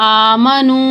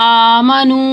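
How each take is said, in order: Both takes have the same delivery.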